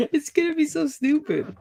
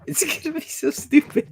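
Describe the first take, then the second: First: Laughing it out in a much higher voice. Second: Much higher, put-on squeaky voice; squeaky silly voice. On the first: Real, not acted. Filming her wax project, she laughs the words out to her friend. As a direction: giggle through the words. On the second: Repeating herself to her friend in a much higher squeaky voice. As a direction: squeak it like a cartoon.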